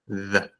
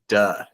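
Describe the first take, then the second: First: It begins with a voiced th sound. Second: It begins with a hard d sound. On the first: The speaker calls it right. "second, vibration" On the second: The speaker calls it wrong. "which is bad"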